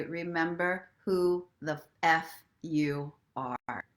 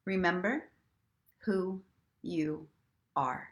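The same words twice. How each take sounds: First: Slow, sassy and spicy, leaning on the F; extra sassy. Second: Said in the usual way. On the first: Shown as a demonstration. To listeners, the spicy version of the mantra, slow and sassy. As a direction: savour it slowly with sass. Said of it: "feeling extra sassy, saucy, spicy". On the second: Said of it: "And if you're feeling extra sassy".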